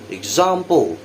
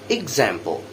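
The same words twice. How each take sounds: First: British accent, with an open 'ah' vowel. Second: American accent, with a flatter 'eh'-like vowel. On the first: "the British version first" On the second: "the American later"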